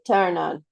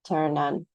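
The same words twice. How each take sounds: First: The stress falls on the verb. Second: The stress falls on the particle. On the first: The speaker calls it wrong. "You're not going to say turn on" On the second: The speaker calls it right. "particles receive the stress"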